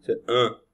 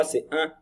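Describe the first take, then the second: First: "un" said like an oral vowel, not nasal; wrong un. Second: "un" as a nasal French vowel. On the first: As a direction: show the wrong, non-nasal "un". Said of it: "C'est pas un, hein". (« un » prononcé sans nasale, la mauvaise façon) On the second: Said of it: "C'est pas un". (« un » prononcé avec la voyelle nasale) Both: Shown as a demonstration.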